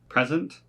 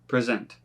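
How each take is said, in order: First: The stress is on the first syllable. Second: The stress is on the second syllable. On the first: It is used as a noun. "for most of these nouns is on the first syllable" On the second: It is used as a verb. "with the verbs, the emphasis is not on the first"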